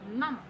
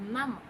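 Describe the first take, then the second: The two takes are said the same way.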